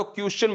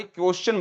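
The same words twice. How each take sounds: First: क्वेश्चन said as 'kyus-chun'; first wrong version. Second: क्वेश्चन said as 'kos-chun'; second wrong version. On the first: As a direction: show क्वेश्चन with a mistaken 'kyu' start. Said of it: "ना तो क्वेश्चन बोलना है". (क्वेश्चन को गलत 'क्युश्चन' कहना) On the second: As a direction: show क्वेश्चन with a mistaken 'ko' start. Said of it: "ना ही क्वेश्चन बोलना है". (क्वेश्चन को गलत 'कोश्चन' कहना) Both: Shown as a demonstration.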